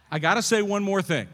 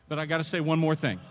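First: Loud, raised, insistent preacher's declaration; emphatic repeat. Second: Said in the usual way. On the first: Real, not acted. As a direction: belt it out to hold the room. Emphatic repeat of his announcement.

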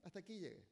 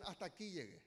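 First: Repeated softly as a weary surrender; muttered giving-up line, much softer; quiet defeat. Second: Mock resignation, softer; defeated quit. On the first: Retold or imitated. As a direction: drop it down, resigned. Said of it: "Escuchaban eso". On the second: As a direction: say it like someone giving up. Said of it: "muchos dicen".

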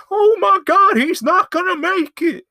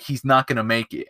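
First: Very high, loud hammed-up shriek; panicked mock scream. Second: Said in the usual way. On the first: Stunt coordinator watching Johnny's jump fail, shrieking in mock panic. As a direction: squeal it out in exaggerated horror.

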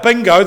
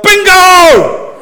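First: Said in the usual way. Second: Loud, high-pitched shout of victory; yelling out. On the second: Shown as a demonstration. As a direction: yell it out like a bingo winner. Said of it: "you yell out".

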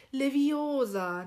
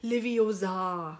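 First: Leviosa slowly, stretched and stressed on the O. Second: Leviosa slowly, with the final A stretched long; wrong Leviosa, weight thrown onto the final A; wrongly stressed last syllable. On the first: Host quotes the film's correction, Leviosa stressed on the O. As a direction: correct Leviosa, leaning long on the O. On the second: Host imitates the misspoken spell, Leviosa with a long end. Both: Shown as a demonstration. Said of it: "nicht Leviosa".

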